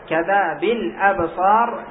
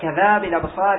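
First: The glottal stop before 'absar' is pronounced. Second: The glottal stop is dropped and its vowel moved back. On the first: The verse gains an extra syllable and breaks the meter. The speaker calls it wrong. "لو لم تنقل فقلت كذا بالأبصار يختل الوزن" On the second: The verse keeps its correct meter. The speaker calls it right. "لكن لو قلت كذا بالأبصار إليه ينظر يستقيم الوزن"

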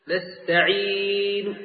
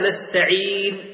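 First: The final vowel is only faintly hinted. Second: The final vowel is fully voiced. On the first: The speaker calls it right. "الروم هو أن يأتي الإنسان ببعض الحركة حيث يسمعها القريب ولا يسمعها البعيد" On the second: The speaker calls it wrong. "لا نقول نستعين"

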